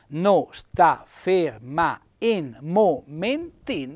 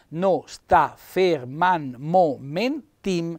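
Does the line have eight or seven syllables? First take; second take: eight; seven. First: The vowels are kept apart, giving eight syllables. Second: The vowels are merged, giving seven syllables. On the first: "diventano otto" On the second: "Sette sillabe"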